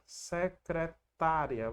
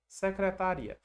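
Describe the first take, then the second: First: The stress falls on the syllable ta. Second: The stress falls on the syllable ri. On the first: It names the person who works as a secretary. "Acento no vizinho, o final fica juntinho" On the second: It names the office or department. "como a letra I começa o encontro, a gente vai ter que separar"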